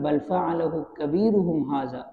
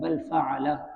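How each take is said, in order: First: The reading runs on without stopping after 'fa'al'. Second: The reading stops right after 'fa'al'. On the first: The speaker says the biggest idol did it. "अगर यहाँ हम वक़्फ़ ना करें बल्कि यूँ पढ़ें" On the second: The speaker says he himself may have done it. "अगर यहाँ हम वक़्फ़ कर दें"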